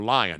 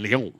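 First: The name is said with an American pronunciation. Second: The name is said with a French pronunciation.

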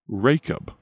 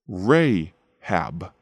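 First: The name is given its New Testament pronunciation. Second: The name is given its Old Testament pronunciation.

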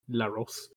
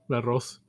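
First: The name has a long 'o' like 'Rose'. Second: The name has a short 'o' like 'Ross'. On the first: The speaker calls it right. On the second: The speaker calls it wrong.

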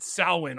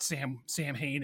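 First: It is not pronounced the way it is spelled. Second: It is pronounced the way it is spelled. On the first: The speaker calls it right. "even though it's actually not pronounced that way" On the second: The speaker calls it wrong. "they keep mispronouncing it Samhain in these movies, because that's how it's spelled"

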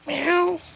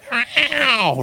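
First: The meow is soft and small. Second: The meow is very loud.

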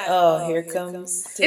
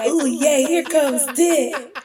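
First: It sounds flat and disappointed. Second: It sounds excited and happy.

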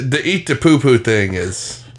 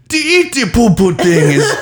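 First: It is said in his normal voice. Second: It is said in a put-on character voice.

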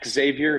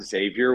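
First: The name begins with a hard KS sound. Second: The name begins with a soft Z sound.

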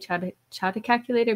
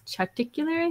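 First: It is said as chart plus calculator. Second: It is said as one blended word, charticular. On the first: The speaker calls it wrong. "I always say it wrong, but I always say chart calculator" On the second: The speaker calls it right. "but it's charticular, I think"

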